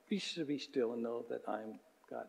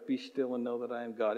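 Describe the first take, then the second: First: Near-hushed verse, much softer; very soft recitation. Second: Quietly recited verse, unhurried; soft recitation. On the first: Pastor repeating the verse for the church, hushed. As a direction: breathe the verse out gently. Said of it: "It's not, not very long". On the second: Pastor modelling the memory verse, spoken softly. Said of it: "would you just memorize that one verse". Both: Shown as a demonstration.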